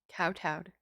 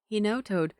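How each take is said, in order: First: The first syllable sounds like 'kow'. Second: The first syllable sounds like 'no'. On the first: The speaker calls it right. "It is pronounced kowtowed" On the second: The speaker calls it wrong. "I always pronounce it no-toed"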